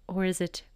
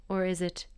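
Both takes have the same delivery.

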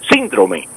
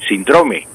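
First: The stress is on the first syllable. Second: The stress is on the second syllable.

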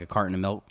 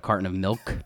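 First: The L at the end of milk is dropped. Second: The L at the end of milk is pronounced. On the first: "we drop the consonant from a word with an L at the end, like a carton of milk" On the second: "instead of"

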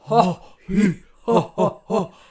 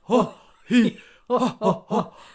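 First: It is said in a Santa Claus voice. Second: It is said in a Santa Claus voice.

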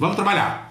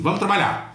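First: It sounds blunt, somewhat rude. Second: It sounds blunt, somewhat rude.

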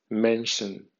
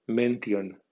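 First: It is read with English sounds and stress. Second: It is read with Spanish letter sounds. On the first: "en pronunciación inglesa" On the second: "como si fuera española"

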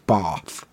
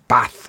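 First: It has a long southern English vowel. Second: It has a short northern English vowel.

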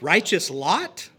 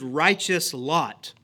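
First: The voice rises at the end, as a question. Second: The voice falls at the end, as a statement.

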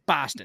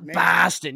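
First: The first vowel is short and snappy. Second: The first vowel is long and drawn out. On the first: The speaker calls it right. "Very short, very, very, very snappy" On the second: The speaker calls it wrong. "You can't like drag out the vowel like that"

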